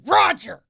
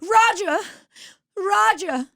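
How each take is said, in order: First: High, loud comic holler; imitating co-host's brash voice. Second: Very high mock-frightened call; scared Mid-Atlantic accent. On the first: Castaway turns into the co-host, brash mock yell. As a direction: drop the elegance and yell it. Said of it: "she turns into you". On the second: Castaway whom Roger ignores, high mock fright. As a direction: call out helplessly, old-film damsel style. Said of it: "When she gets really scared".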